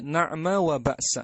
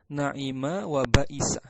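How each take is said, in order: First: The second letter has no vowel after it. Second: The second letter is followed by an i vowel. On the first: "huruf pertamanya di fathah, huruf keduanya disukun" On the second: "huruf pertama di fathah, huruf keduanya di kasra"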